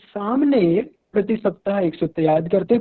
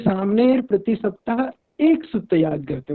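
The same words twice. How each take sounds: First: The stress falls on the first word. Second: The stress falls on the word 'ek'. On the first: This person does it and nobody else does. "अगर हम सामने पर ध्यान दे रहे हैं, जोर दे रहे हैं" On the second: No more than one formula is learned. "एक ही सूत्र पर अगर जोर दे रहे हैं"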